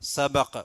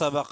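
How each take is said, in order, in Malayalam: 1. വാചകത്തിന്റെ അവസാനത്തിൽ നിർത്തിയാണ് പറയുന്നത്. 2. വാചകം തുടരുന്നതുപോലെ ചേർത്ത് തുടർന്ന് പറയുന്നു. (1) "നിർത്താണെങ്കിൽ" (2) "കൂട്ടിയതുമ്പോ"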